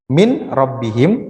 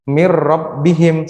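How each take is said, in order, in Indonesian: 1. Bunyi n tetap dibaca sebelum r. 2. Bunyi n melebur ke dalam r. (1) "Harusnya kan dibaca min rabbihim" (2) "maka dibaca mir rabbihim"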